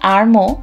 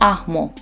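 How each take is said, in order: First: The name is said with an R sound. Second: The name is said without an R sound. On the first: "যদিও ওর নামটা হচ্ছে আরমো" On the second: "ফ্রান্সে কিন্তু আর এর উচ্চারণ হয় না"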